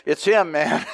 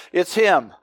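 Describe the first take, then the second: First: Said in the usual way. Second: "It's him" said through a light laugh; a laugh breaking into "him". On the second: Retold or imitated. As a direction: chuckle the words "It's him". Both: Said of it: "And Sidney went".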